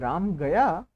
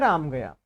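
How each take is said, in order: First: It is said as a question, rising. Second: It is said as a plain statement, falling.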